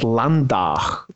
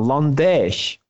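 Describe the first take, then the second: First: It is said in the Landau local dialect. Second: It is said in the Herxheim local dialect.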